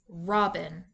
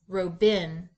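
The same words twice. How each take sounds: First: The stress is on the first syllable. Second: The stress is on the second syllable. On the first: The speaker calls it right. "place the accent back on the first syllable" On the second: The speaker calls it wrong. "Let's switch the accent"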